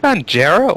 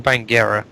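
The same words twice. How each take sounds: First: "Bangera" said as "ban-JERR-a"; "Bangera" with soft G, like "jer". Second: "Bangera" said as "bang-GERR-a"; "Bangera" with "ng" then hard G. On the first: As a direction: give "Bangera" a J sound in the middle. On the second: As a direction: give "Bangera" a hard G, as in "get". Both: Shown as a demonstration. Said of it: "Is it Bangera or Bangera?".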